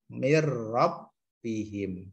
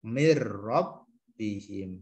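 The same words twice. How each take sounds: No difference in how they are said.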